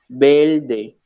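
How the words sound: The consonant before the d is an l. "dicen verde"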